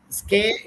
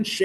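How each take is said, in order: First: "Ske" said skeh with a hard SK, pitched up; "Ske" as in American sked-jool; American first syllable. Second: "she" said sheh with a soft SH; "she" as in British shed-jool; British first syllable. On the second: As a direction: say "she" as SHEH, not skeh. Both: Shown as a demonstration.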